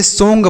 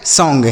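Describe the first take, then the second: First: सॉन्ग misread as "song-ga" with a long Hindi o; beginner's misreading. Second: सॉन्ग with an open "aw" vowel before ng; correct reading. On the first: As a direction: read सॉन्ग letter by letter as "so-n-ga", like a novice. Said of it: "नया व्यक्ति होगा तो इसे ऐसे पढ़ेगा". (सॉन्ग को गलत ढंग से "सोंग" पढ़ना, ओ की मात्रा के साथ) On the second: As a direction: say सॉन्ग as "sawng", the ending taught as ओंग. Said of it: "इसे आपको ओंग पढ़ देना है". (सॉन्ग को खुले "ऑ" स्वर से "सॉंग" पढ़ना) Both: Shown as a demonstration.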